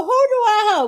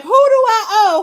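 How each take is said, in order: First: Imitating a higher laughing repeat, a little less loud; laughing disbelief. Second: Imitating a much higher, louder laughing "who do I owe"; mock laughing denial; laughing disbelief. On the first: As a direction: still laughing, slightly calmer. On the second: Angela laughing off the debt accusation.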